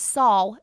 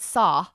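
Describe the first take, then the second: First: The vowel ends with a W-like glide. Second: The vowel has no W-like glide. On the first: The speaker calls it right. "It's saw" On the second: The speaker calls it wrong. "You're not saying the W at all"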